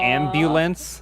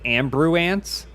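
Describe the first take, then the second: First: An L sound follows the b. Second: An R sound replaces the L sound. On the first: This is the usual form of the word. The speaker calls it right. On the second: This is how it was said as a child. The speaker calls it wrong.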